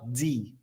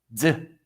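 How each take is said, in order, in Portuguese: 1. A letra é dita pelo seu nome completo. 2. A letra é dita como um som curto e seco. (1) "A letra D no alfabeto se fala D" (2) "O som de fonética do D é um som seco"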